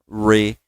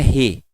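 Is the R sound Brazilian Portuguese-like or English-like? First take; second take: English; Brazilian Portuguese. First: The R is a fuller English R. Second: The R is a Brazilian Portuguese R. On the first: The speaker calls it right. "Ele é mais cheio" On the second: The speaker calls it wrong. "Não é re"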